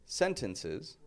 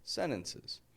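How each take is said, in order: First: The T after the N is clearly pronounced. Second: The T after the N is dropped. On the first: The speaker calls it wrong. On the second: The speaker calls it right.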